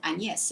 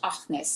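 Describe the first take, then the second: First: The name is pronounced the French way. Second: The name is pronounced the Dutch way. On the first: "in French" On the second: "named in Dutch"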